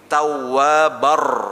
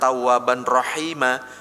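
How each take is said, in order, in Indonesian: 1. Bunyi n menyatu sepenuhnya dengan r. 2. Bunyi n dilafalkan sebelum r. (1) "tapi tawabar, langsung masuk ke sini" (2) "Jangan tawaban rohima"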